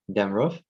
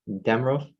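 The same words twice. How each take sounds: First: DamROV, weight on the second syllable; "Damrov" with light dam; stress on second syllable. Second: DAMrov, weight on the first syllable; "Damrov" with light rov; stress on first syllable. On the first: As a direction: nonsense word "Damrov" with strong ROV. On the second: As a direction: nonsense word "Damrov" with strong DAM. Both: Shown as a demonstration. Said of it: "stress pattern".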